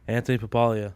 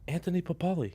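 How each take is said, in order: First: The surname ends with an extra 'ah' sound. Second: The surname ends on an 'ee' sound. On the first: The speaker calls it wrong. "Why do you say my name wrong?" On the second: The speaker calls it right.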